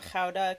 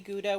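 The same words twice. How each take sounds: First: The word is said with Dutch pronunciation. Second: The word is said with English pronunciation. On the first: It is how native speakers of the source language say it. "that's the way Dutch people say it" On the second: It is said so English speakers understand. "when I absolutely have to to communicate with people"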